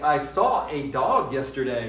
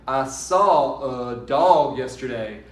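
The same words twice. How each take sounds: First: The article 'a' is said as a full 'ay'. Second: The article 'a' is reduced to a weak 'uh'. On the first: The speaker calls it wrong. "we don't say" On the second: The speaker calls it right. "We say"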